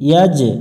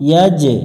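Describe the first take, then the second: Both takes have the same delivery.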